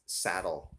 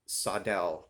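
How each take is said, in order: First: It is pronounced like the English word saddle. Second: It is pronounced the Swedish way, sadel. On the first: The speaker calls it wrong. "everybody pronounces this saddle. It's actually not" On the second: The speaker calls it right. "The cor- correct pronunciation for this is sadel"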